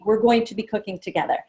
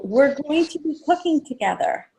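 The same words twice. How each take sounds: First: Said in the usual way. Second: Announcing to guests. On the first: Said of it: "So I've planted that seed". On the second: Shown as a demonstration. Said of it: "I also tell people".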